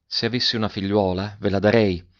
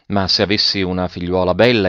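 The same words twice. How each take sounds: First: Understated, tender narrated voice; gently. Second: Said in the usual way. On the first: A narrator's reading. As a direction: say it back gently, with less force. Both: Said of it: "Poscia ripeté dolcemente".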